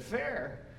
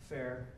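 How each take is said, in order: First: Puzzled echo. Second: Much lower and softer, flat "fair."; flat reply. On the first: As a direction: repeat "Fair?" in disbelief. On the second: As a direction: say "fair." like it's nothing special. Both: Retold or imitated.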